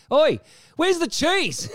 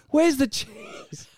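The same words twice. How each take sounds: First: High, slow drawn-out demand; a cheeky bellow across the room; mock yell. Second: High, slow drawn-out demand; mock demand. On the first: Friend barges into the photo shoot, slow high bellow. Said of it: "barges in and goes". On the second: Retelling the friend crashing photos, slow high demand. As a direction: stretch it out cheekily. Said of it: "everyone turns around".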